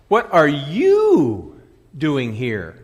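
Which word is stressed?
you. The word 'you' carries the main stress. Asks who the person is to be there. "A question of identity"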